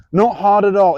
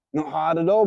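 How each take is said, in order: First: Not hit louder, falling at the end; emphatic Not, louder than the first take; stress on not. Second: Said in the usual way. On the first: Shown as a demonstration. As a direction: lean on Not to drive it home. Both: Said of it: "repeats for emphasis".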